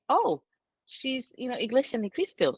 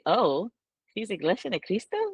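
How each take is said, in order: First: It is said in an approving, admiring tone. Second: It is said in a disapproving, scornful tone.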